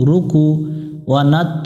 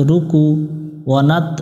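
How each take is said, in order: No difference in how they are said.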